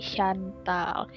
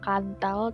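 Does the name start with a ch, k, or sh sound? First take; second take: sh; k. First: The name begins with an sh sound. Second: The name begins with a k sound. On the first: The speaker calls it right. "tapi Shantal" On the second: The speaker calls it wrong. "bukan Kantal"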